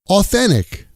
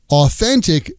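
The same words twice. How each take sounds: First: The T after the N is dropped. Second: The T after the N is clearly pronounced.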